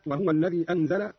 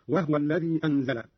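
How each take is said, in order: First: Said in the usual way. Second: وهو in two syllables, wah-wa; vowelless ha. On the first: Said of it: "قرأ قالون بإسكان الهاء". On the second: Shown as a demonstration. Teacher shows Qalun's reading, وهو pronounced wahwa. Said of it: "بإسكان الهاء هكذا".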